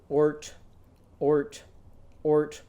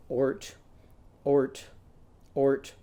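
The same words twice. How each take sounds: The two takes are said the same way.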